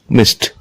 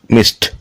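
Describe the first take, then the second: First: The ending is a t sound. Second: The same.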